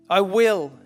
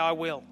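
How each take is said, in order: First: It sounds like a firm, determined command. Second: It sounds like a casual, offhand agreement. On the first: Ordering oneself to do something. The speaker calls it right. "the will where you are commanding yourself" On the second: Agreeing to a chore someone else asked for. The speaker calls it wrong. "Not that kind of a will"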